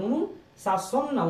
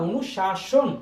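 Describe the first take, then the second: First: অনুশাসন stretched slowly and high as the wrong form; slow wrong take. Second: অনুশাসন said short and firm as the right form; corrected take. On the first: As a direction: drag out অনুশাসন to mark it wrong. (ভুল উচ্চারণ অনুশাসন, টেনে টেনে) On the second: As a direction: settle on অনুশাসন crisply. (সঠিক উচ্চারণ অনুশাসন, দৃঢ়ভাবে) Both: Shown as a demonstration.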